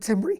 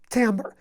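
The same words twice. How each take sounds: First: The word is said just as it is spelled. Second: The word is said differently from its spelling. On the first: The speaker calls it wrong. "Don't call it timbre. Even though it looks like timbre" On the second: The speaker calls it right. "It's timbre"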